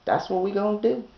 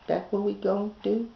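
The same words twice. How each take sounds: The two takes are said the same way.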